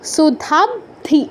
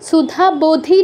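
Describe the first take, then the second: First: The b and dh join with no vowel between. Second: An o vowel is inserted between b and dh. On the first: The speaker calls it right. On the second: The speaker calls it wrong.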